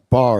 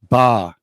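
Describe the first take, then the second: First: The final R sound is pronounced. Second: The final R sound is dropped. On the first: This is not how Boston speakers say it. "they don't say" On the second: This is how Boston speakers say it. "They say ... ba ... They drop it"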